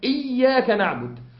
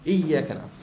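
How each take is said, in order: First: The doubled consonant is held very long and strong. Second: The doubled consonant is held with moderate length. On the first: "مبالغة زي ما قلت لك" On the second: "أو توسط نحو إيه؟"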